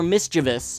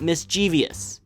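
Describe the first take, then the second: First: Mischievous is said with three syllables. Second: Mischievous is said with four syllables. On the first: The speaker calls it right. "it's pronounced mischievous" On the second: The speaker calls it wrong. "not mischievous"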